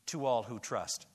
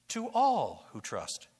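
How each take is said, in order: First: Said in the usual way. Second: Slow, with all leaned on hard; all who trust, with all slowed and weighted; stress on all. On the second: Shown as a demonstration. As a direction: hit the word all and draw it out. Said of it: "bound up with the little word all".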